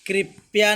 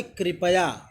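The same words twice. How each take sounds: First: कृपया squeezed to krip-ya; wrong pronunciation. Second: कृपया in three syllables, kri-pa-ya; full pa sound. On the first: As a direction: drop the middle vowel of कृपया. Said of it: "कृपया नहीं होता है". (गलत उच्चारण, कृपया को "कृप्या" बोलें) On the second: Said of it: "प पूरा रहेगा". (कृपया में पूरा "प" बोलें) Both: Shown as a demonstration.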